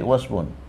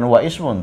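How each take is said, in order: First: The initial i is dropped, linking into wasmun. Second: The initial i of ismun is pronounced separately. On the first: The speaker calls it right. "tapi wasmun" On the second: The speaker calls it wrong. "bukan wa ismun"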